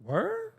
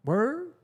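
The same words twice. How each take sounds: First: High, incredulous squeak of a question; an exaggerated double take; mock shocked disbelief. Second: Mock surprise. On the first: To the friend who went to the party, a high shocked reply. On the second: Mock friend reacts to news.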